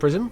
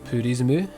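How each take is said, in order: First: It is said as plain English, two syllables. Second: It is said Japanese-style with extra vowels added.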